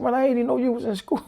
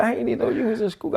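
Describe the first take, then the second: First: Higher, quicker, through laughter; retold line broken by laughter; laughing quote. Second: Said in the usual way. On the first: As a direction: laugh while saying it. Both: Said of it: "He said".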